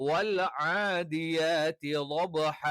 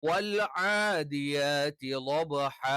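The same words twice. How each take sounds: The two takes are said the same way.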